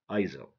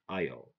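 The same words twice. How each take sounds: First: The S is pronounced in the word. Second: The S is silent in the word. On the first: The speaker calls it wrong. "Don't say Isle" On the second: The speaker calls it right. "S is silent because it comes after I"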